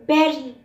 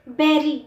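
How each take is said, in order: The two takes are said the same way.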